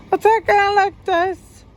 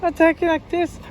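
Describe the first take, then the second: First: Much higher, louder demo of frantic talk; demonstrating agitated talk, intensified. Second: Higher-pitched demo of frantic talk; demonstrating agitated talk. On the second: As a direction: talk higher, showing how it sounds. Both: Shown as a demonstration. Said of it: "you could sometimes talking like this".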